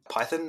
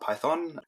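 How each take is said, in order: First: It is said with a British pronunciation. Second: It is said with an American pronunciation. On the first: This is how the speaker's own country says it. "a country that also says Python" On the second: This is how another country says it. "not Python"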